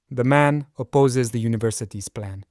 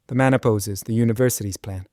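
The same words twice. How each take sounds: First: Opposes stressed, the man's objection clear. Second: Short pause after "opposes", then stress "university's". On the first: Teacher demos a reading that punches "opposes". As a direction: lean into "opposes" to show his opposition. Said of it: "Really emphasize the verb and the man's opposition". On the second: Teacher demos a pause after the verb with stressed university. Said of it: "By pausing after the verb and stressing the university". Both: Shown as a demonstration.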